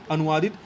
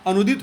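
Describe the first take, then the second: First: अनुवादित with "vaa" in the middle; wrong form. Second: अनुदित with no "vaa"; correct form. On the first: Teacher names the wrong word, अनुवादित with "vaa". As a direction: sound all of अनुवादित, anu-vaa-dit. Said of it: "अनुवादित भी आपका गलत है". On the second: Teacher gives the correct word, अनुदित without "vaa". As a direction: run anu straight into dit in अनुदित. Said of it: "अनुदित होता है". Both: Shown as a demonstration.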